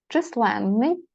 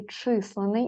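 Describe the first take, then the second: First: Численний with stress on ЛЕН, long нн; stress on second syllable. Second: Численний said as ЧИС-ле-ний, single н; stress on first syllable. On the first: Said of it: "якщо падає наголос сюди". (численний: наголос на ЛЕН, подовжене «нн») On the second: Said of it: "Але, звісно, може бути і". (численний: наголос на ЧИС, коротке «н») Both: Shown as a demonstration.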